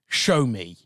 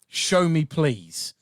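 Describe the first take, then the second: First: It is said in a commanding, dominant way. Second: It is said in a meek, polite way.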